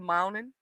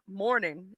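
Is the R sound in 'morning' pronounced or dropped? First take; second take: dropped; pronounced. First: The word is said without an R sound. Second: The word is said with a clear R sound. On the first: "I say good morning" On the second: "I don't say it with an R"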